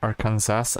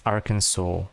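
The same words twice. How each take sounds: First: Arkansas said as spelt, ending in "Kansas"; spelling pronunciation. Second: Arkansas said as "AR-kin-saw"; American pronunciation. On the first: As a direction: say Arkansas as "ar-KAN-zas", final s sounded. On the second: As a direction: say Arkansas with a silent final s, ending in "saw". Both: Shown as a demonstration. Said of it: "that pronounce".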